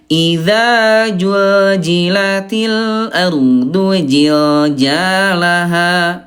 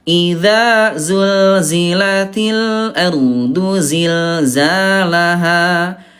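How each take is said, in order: First: The repeated consonant is a j sound. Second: The repeated consonant is a z sound. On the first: The speaker calls it wrong. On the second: The speaker calls it right.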